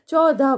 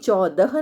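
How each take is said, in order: First: The word is pronounced in a common careless form. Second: The word is pronounced in its careful standard form. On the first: The speaker calls it wrong. "चौदह बोल देते हैं" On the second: The speaker calls it right. "ऐसे ही चौदह नहीं बोलते हैं"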